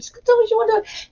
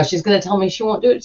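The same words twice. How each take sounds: First: Much higher, fast squeaky panic; panicked inner voice. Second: Said in the usual way. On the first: Retold or imitated. Dreading the pharmacist will refuse, squeaky mock panic. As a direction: spiral into panic, voice jumping up. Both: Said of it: "And I'm like".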